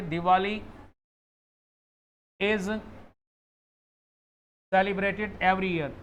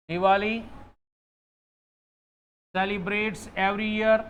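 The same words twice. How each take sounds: First: "Diwali is celebrated every year" said very slowly, word by word; slow correct example. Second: "Diwali celebrates every year" said very slowly, word by word; slow wrong example. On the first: Teacher slowly reads the correct sentence to students. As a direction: lay out the right sentence slowly for contrast. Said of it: "और एक मैंने कहा कि". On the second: Teacher slowly reads the wrong sentence to students. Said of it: "बताओ कौन सा sentence सही है?". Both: Shown as a demonstration.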